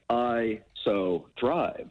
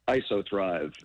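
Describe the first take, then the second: First: The name is split into three separate words. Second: The name is said smoothly as one word. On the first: "some people syncopate it like I so thrive" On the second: "we pronounce it ISOThrive"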